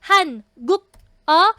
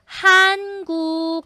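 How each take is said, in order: First: Each syllable is said separately, ending in k. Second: The syllables run together, the k becomes g. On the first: The speaker calls it wrong. "Yan ang per syllable" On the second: The speaker calls it right. "the proper reading"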